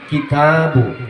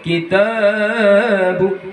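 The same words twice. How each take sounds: First: The long vowel is held for two beats. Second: The long vowel is stretched well beyond two beats. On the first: The speaker calls it right. "cukup dua harokat saja" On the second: The speaker calls it wrong. "Tidak boleh"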